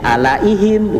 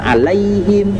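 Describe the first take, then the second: First: The a and i are split into two syllables. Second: The 'ai' is joined into one syllable. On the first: The speaker calls it wrong. "Ketika membaca Latinnya bacanya jadi alaihim" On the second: The speaker calls it right. "bukan alaihim ... itu adalah satu suku kata"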